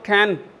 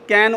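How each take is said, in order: First: The first consonant has a strong puff of air. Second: The first consonant is plain, without a puff.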